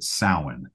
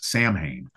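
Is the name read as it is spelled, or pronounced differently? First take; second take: differently; as spelled. First: The name is not read as it is spelled. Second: The name is read out as it is spelled. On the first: This is how the singer says it in his songs. "in all the songs, he pronounces it Samhain" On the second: This is how most people would read the name. "the average person is going to read that as Sam Hain"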